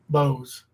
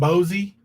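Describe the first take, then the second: First: The word is said as one syllable. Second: The word is said as two syllables. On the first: The speaker calls it right. "It's Bose" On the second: The speaker calls it wrong. "He was saying Bozy"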